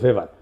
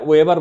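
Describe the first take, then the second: First: The name begins with a V sound. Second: The name begins with a W sound. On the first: This is the actual pronunciation. The speaker calls it right. "উচ্চারণ আসলে ভেবার" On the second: This is how many people say it. The speaker calls it wrong. "ওয়েবার বলে অনেকে"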